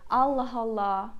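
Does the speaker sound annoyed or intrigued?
annoyed. It is said in an annoyed, exasperated tone. The speaker is fed up with the situation. "when you're angry to someone, you say Allah Allah. It means like, oh my God, I'm done with it"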